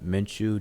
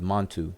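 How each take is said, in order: First: The name ends with a 'ch' sound before 'u'. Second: The name ends with a 't' sound before 'u'. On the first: The speaker calls it right. "but it's Men and then Chu" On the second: The speaker calls it wrong. "most people will pronounce it Montu"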